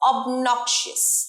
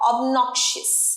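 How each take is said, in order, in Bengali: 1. মাঝের সিলেবলটা nok এর মতো শোনায়। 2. মাঝের সিলেবলটা nok এর মতো শোনায়।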